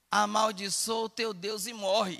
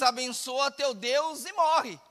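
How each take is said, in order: First: Said in the usual way. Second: Slow, drawn-out ironic blessing. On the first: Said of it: "Isso é na tradução nossa". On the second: Retold or imitated. Job's wife ironically blessing God to her husband, ironic. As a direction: say it with slow, mock-pious irony. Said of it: "De uma forma ironizada, ela diz".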